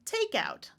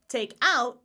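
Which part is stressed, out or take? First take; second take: take; out. First: The stress is on take. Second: The stress is on out. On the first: It is a noun meaning bought ready-made food. "Stress on the first word in this case" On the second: It is a phrasal verb meaning to remove. "phrasal verb. Stress on the on the preposition"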